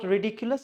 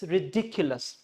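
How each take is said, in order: First: "ridiculous" said the mistaken way, accent off DIC; wrong pronunciation. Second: "ridiculous" stressed ri-DIC-ulous; correct stress. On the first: Teacher showing what not to say, wrong "ridiculous". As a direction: say "ridiculous" without punching the second syllable. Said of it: "this is not ridiculous". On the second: Teacher correcting learners, "ridiculous" stressed ri-DIC-ulous. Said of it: "it's ridiculous". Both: Shown as a demonstration.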